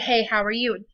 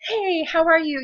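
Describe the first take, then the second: First: It is said flatly, just reported. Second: It is said expressively, acted out in character.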